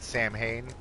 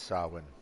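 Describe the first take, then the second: First: It is said in an anglicized, spelling-based way. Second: It is said with its Gaelic pronunciation. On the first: The speaker calls it wrong. "I know a lot of people that would pronounce that Samhain" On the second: The speaker calls it right. "I believe it's Gaelic. And it is pronounced Samhain"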